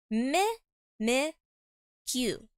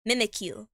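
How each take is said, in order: First: "Mi-, Mi-, Q" sounded out with pauses between syllables. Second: Said in the usual way. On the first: Shown as a demonstration. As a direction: sound out "Mi-, Mi-, Q" one piece at a time. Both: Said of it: "That's how you pronounce it".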